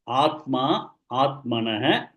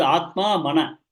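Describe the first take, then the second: First: "Atma, Atmanah" as two full words; "Atma", then all of "Atmanah", carefully separated; corrected word split. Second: "Atma, Mana" with "Mana" as a separate short word; mistaken word split. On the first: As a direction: say "Atmanah" whole, with an echoed final "ha". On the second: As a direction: drop the start and final h of Atmanah, saying "Mana". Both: Shown as a demonstration. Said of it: "It is not Mana".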